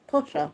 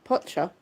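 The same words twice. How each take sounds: First: Posher with a clean sh sound; corrected posher. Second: Potcher with a tch sound in place of sh; mispronounced posher. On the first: Correcting herself to viewers, Posher with a clear sh. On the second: Checking the word posher for the viewers, Potcher with tch. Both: Shown as a demonstration. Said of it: "a bit posher".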